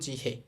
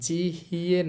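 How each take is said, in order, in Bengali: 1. শেষ স্বরধ্বনিটি সাধারণ 'e' হিসেবে উচ্চারিত হয়। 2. শেষ স্বরধ্বনিটি 'ye' হিসেবে উচ্চারিত হয়। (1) "সহজে বলবো" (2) "না বলে"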